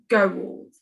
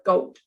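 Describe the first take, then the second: First: It is blended stiffly from the letter sounds. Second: It is said naturally, with the usual L sound. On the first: The speaker calls it wrong. "that doesn't sound right" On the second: The speaker calls it right. "we pronounce it as gold"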